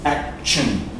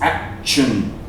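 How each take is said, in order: First: The middle consonant is a ch sound. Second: The same.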